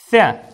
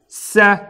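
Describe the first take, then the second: First: The first sound is a soft th. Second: The first sound is a hissing s. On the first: The speaker calls it right. "произносится так глухо, не свистя" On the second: The speaker calls it wrong. "«Ся» неправильно"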